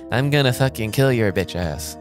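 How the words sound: It is said in a flat, monotone voice. The voice does not match the furious look. "her voice is completely monotone. But she sounds like this"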